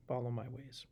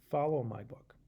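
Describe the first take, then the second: First: Soft breathy whisper on follow my ways. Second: Said in the usual way. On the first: Acted. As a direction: hush it like a secret. God's instruction, whispered. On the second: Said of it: "He says".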